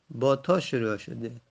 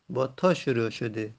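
No difference in how they are said.

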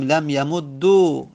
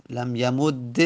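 First: Slow "لم یمدو" ending in doubled d plus long u; final damma. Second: "لم یمد" ending in doubled d plus e; final kasra. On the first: Teacher showing an allowed variant, "یمدو" said yamud-du with final damma. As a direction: close "لم یمدو" on a drawn-out "du". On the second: Teacher showing an allowed variant, "یمد" said yamud-de with final kasra. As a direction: close "لم یمد" on a held "de". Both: Shown as a demonstration.

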